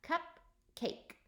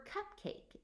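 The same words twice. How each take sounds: First: Cupcake broken into two beats, cup then cake, higher; syllables split. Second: Cupcake said slowly and evenly, every sound clear; slow, clear modelling. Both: Shown as a demonstration. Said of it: "how many syllables we hear in the word cupcake".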